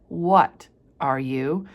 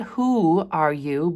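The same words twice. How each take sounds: First: "What are you?" with "What" leaned on, slow and rising; stress on what. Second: "Who are you?" with the weight on "Who", slow, rising; stress on who. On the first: Teacher stressing "What" to show Hester's real question. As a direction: make "What" the point, treat her as a thing. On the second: Reading out the question she did not ask, stress on "Who". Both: Shown as a demonstration.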